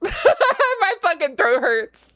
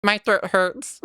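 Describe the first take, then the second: First: Slow, laughing through the words. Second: Said in the usual way. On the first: Real, not acted. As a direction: laugh while complaining. Repeats complaint laughing.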